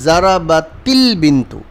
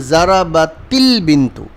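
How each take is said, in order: First: The verb runs into the next word with 'il'. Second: The same.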